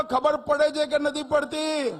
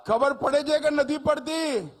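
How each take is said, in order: First: Louder repeat. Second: Said in the usual way. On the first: Shown as a demonstration. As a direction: shout it to the crowd, louder. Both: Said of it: "અરે જોરથી બોલો".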